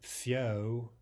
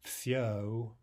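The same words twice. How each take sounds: No difference in how they are said.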